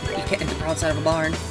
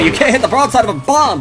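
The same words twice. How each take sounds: First: It is said in a plain, natural voice. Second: It is said in a put-on blustery cartoon voice.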